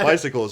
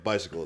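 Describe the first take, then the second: First: Said in the usual way. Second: Bicycles repeated lower and much softer, in flat disbelief; mock disbelief. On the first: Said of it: "They're like, "Bicycles". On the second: Gym guys echoing the answer back, imitated disbelief. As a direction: echo Bicycles back like you can't believe it. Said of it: "They're like".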